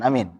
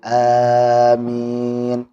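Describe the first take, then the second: First: The vowel is kept short. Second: The vowel is drawn out long. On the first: The speaker calls it wrong. "Bukan amin" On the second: The speaker calls it right. "tapi amin. Panjangkan"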